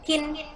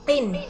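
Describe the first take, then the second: First: It starts with a plain k sound. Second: It starts with a deep q from the throat. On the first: The speaker calls it wrong. "bukan kin" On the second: The speaker calls it right. "Pakai qaf"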